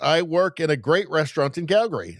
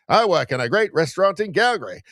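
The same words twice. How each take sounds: First: It is read in an ordinary speaking voice. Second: It is read in an old-time radio announcer voice.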